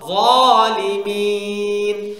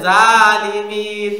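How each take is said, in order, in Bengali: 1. প্রথম ব্যঞ্জনটি ভারী ও মোটা। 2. প্রথম ব্যঞ্জনটি হালকা ও পাতলা। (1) "যেমন" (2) "কেউ যদি বলে জালিমিন তাহলে এটা জাল হয়ে গেল মারাত্মক ভুল"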